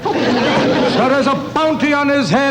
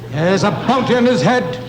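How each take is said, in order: First: It is said in a put-on impersonation voice. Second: It is said in his own natural voice. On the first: The speaker calls it right. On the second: The speaker calls it wrong.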